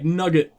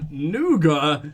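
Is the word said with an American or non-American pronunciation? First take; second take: American; non-American. First: The word is said with an American pronunciation. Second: The word is said with a non-American pronunciation.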